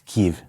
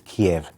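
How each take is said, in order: First: The name is said with the Ukrainian pronunciation. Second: The name is said with the Russian pronunciation. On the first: "It's Kiev" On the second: "the Russian is Kiev"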